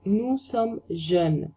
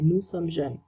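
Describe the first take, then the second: First: Nous sommes jeunes stretched out, weight on sommes; slow teacher demo; very slow French model. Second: Nous sommes jeunes said at everyday speed; quick recap take; normal-pace repeat. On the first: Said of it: "slow model phrase". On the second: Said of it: "normal repeat". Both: Shown as a demonstration.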